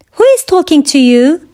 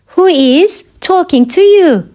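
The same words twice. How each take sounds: First: Said in the usual way. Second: Measured language-lesson delivery. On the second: Shown as a demonstration. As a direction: pause after "Who is". Teacher repeats question slowly for learners.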